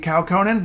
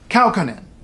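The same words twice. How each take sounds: First: The stress falls on a later syllable. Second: The stress falls on the first syllable. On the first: The speaker calls it wrong. "looks like it should be" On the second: The speaker calls it right. "Stress on the first syllable"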